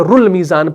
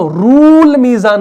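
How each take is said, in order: First: The vowel in the first word is short. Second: The vowel in the first word is long. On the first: The speaker calls it right. "बल्कि रुल मीज़ान पढ़ते हैं" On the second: The speaker calls it wrong. "हम रूल मीज़ान नहीं पढ़ते"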